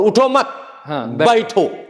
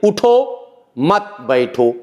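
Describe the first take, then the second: First: The pause comes after the second word. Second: The pause comes after the first word. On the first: Don't get up, sit. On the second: Get up, don't sit.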